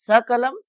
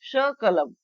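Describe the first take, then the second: First: सकलम as sa-kalam; plain s opening सकलम; dental S. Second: शकलम as sha-kalam; sh opening शकलम; SH replacing S. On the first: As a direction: say सकलम with स, not श. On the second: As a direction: say शकलम with श, not स. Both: Shown as a demonstration. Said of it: "इसके स्थान पर शकलम".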